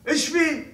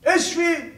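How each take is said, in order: Both takes have the same delivery.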